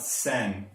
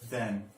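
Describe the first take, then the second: First: It begins with a hissing s sound. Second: It begins with a soft th sound. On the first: The speaker calls it wrong. "not sen" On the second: The speaker calls it right.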